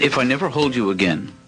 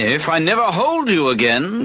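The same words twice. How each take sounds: First: It is said in his own accent. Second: It is said in a put-on British accent.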